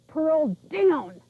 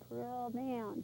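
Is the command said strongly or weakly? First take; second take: strongly; weakly. First: It is said in a strong, forceful voice. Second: It is said in a weak, soft voice.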